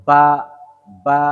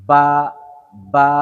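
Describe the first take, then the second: No difference in how they are said.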